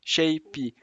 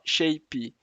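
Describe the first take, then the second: No difference in how they are said.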